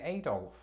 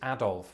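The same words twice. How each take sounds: First: It is said with an American pronunciation. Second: It is said with a British pronunciation. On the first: "most Americans who I always hear say Adolf" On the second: "which is precisely how I pronounce it"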